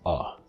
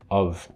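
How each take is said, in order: First: It has only a schwa, with no consonant. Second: It has a reduced schwa vowel and a consonant. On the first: It is used in even faster speech. "You even drop the consonant" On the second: It is used in rapid speech. "a weaker form of this that is pronounced, which includes the schwa"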